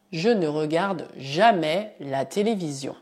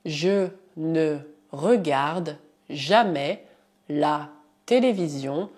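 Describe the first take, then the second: First: Said in the usual way. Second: "je ne regarde jamais" said slowly in chunks; teacher dictating slowly; slow dictation. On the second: Shown as a demonstration. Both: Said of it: "Por exemplo".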